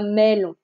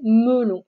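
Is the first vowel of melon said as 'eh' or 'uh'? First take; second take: eh; uh. First: The first vowel is an open 'eh' sound. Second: The first vowel is a soft 'uh' sound. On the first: The speaker calls it wrong. "et pas melon" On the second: The speaker calls it right. "on va la lire E, ce qui donne melon"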